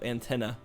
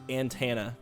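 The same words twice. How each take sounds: First: It does not sound like the name Santana. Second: It sounds similar to the name Santana. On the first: This is the usual way of saying it. The speaker calls it right. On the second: This is a regional country way of saying it. The speaker calls it wrong.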